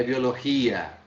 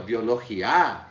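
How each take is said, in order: First: Biologia stressed on the GI, final A falling away. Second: Biologia with the last A hit hard; wrongly end-stressed biologia, landing on A; stress on final A. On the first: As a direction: say biologia as bio-lo-GI-a. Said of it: "Olhem aqui a pronúncia". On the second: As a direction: say biologia as bio-lo-gi-A, as a doubtful question. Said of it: "É biologia". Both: Shown as a demonstration.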